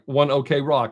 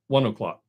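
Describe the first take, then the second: First: It is said as 'one okay rock'. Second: It is said as 'one o'clock'. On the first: The speaker calls it wrong. "even though it looks like One OK Rock, it's not" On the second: The speaker calls it right. "It's one one o'clock"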